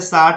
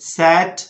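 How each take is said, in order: First: The vowel is an open 'aa' sound. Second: The vowel is a flat front 'ae' sound. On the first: The speaker calls it wrong. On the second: The speaker calls it right.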